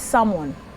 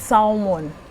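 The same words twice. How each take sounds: First: The L sound is silent in the word. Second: The L sound is pronounced in the word. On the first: The speaker calls it right. "we say salmon ... the L is silent" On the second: The speaker calls it wrong. "we don't say salmon"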